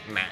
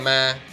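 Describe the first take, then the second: First: It is said with the nặng tone. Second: It is said with a level tone. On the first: "yo nang" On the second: "without a tone"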